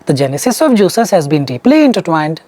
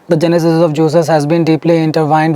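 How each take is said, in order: First: The pitch moves up and down expressively. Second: The pitch stays flat and even throughout. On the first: The speaker calls it wrong. "here you give intonation" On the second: The speaker calls it right. "No intonations, you just have to go blind"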